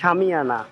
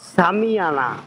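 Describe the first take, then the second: First: The word begins with an h-like sound. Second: The word begins with a clear s sound. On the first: This is how locals actually pronounce it. "আসলে কিন্তু উচ্চারণ হচ্ছে সামিয়ানা" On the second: This follows the written spelling. "লেখা হইতেছে সামিয়ানা"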